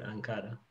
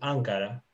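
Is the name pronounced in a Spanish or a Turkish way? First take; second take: Spanish; Turkish. First: The name is said with Spanish pronunciation. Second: The name is said with Turkish pronunciation. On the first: "En español, Ankara. Cambia un poquito, solamente la pronunciación" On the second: "En turco decimos es Ankara"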